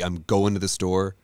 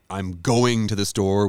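First: The word going ends without a g sound. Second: The word going ends with a g sound.

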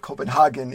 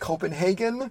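First: It is said the European way. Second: It is said the North American way. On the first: "maybe they call it Copenhagen in Europe" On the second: "We would call it Copenhagen"

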